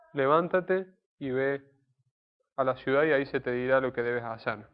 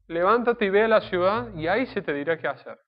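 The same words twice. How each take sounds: First: "Levántate y ve a la ciudad" drawn out slowly and solemnly; slow solemn command. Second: "Levántate y ve a la ciudad" pitched up and louder as an order; emphatic command. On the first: Preacher reading God's order to Saulo, slow and solemn. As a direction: read God's command slowly, weighing each word. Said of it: "se hace caso a la voluntad y a la voz de Dios". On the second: Preacher crying out God's order to Saulo, loud and emphatic. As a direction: proclaim it as a firm order. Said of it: "Fue una orden concreta". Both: Shown as a demonstration.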